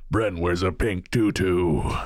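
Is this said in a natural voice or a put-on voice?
put-on. It is said in a special put-on character voice.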